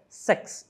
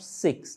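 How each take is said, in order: First: The vowel sounds close to 'eh'. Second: The vowel sounds close to 'ih'. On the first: The speaker calls it right. "o som é um pouquinho mais próximo do E" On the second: The speaker calls it wrong. "e não six"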